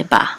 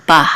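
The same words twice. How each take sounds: First: Said in the usual way. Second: "ba" with an aspirated ending; audible final H. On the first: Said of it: "nowadays we just say ba". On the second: Shown as a demonstration. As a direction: breathe out an h after "ba". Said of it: "the H sound, um, be more audible".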